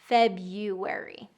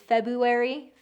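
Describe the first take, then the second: First: A 'y' glide comes before the 'u' sound. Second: No 'y' glide comes before the 'u' sound. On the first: The speaker calls it right. "when you put that yeah in there, it's going to sound more like native speakers say it" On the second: The speaker calls it wrong. "what I hear when you don't put the invisible Y there"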